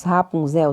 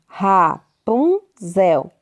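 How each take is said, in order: First: Said in the usual way. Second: "Rapunzel" broken into three slow beats; syllable by syllable. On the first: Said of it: "Rapunzel tem três sílabas". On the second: Shown as a demonstration. Teacher having pupils count syllables, "Rapunzel" said in separate beats. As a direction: pause between the syllables of "Rapunzel". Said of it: "Tem quantas sílabas?".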